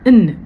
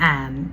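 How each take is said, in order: First: The word has a short, weak vowel. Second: The word has a full, open vowel. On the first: This is how it sounds in connected speech. The speaker calls it right. "ആനിനെ ഇന്ന്" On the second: This is the word's citation name. The speaker calls it wrong. "ഇതിൻ്റെ പേരാണ് ആൻ"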